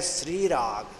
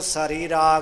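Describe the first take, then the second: First: The s and r are joined without a vowel. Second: A full vowel separates the s and r. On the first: The speaker calls it right. "ਪਰ ਇਸ ਦਾ ਉਚਾਰਨ ਹੈ ਸ੍ਰੀ ਰਾਗ" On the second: The speaker calls it wrong. "ਇਹਨੂੰ ਸਰੀ ਰਾਗ ਨਹੀਂ ਉਚਾਰਨ ਕਰਨਾ"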